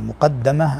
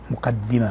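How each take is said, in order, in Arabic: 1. الدال يليها الصوت 'a'. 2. الدال يليها الصوت 'i'. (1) "عفوا مقدمة أن تقدمها أمام الكتاب" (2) "اشتهر الكسر، مقدمة كسر الدال"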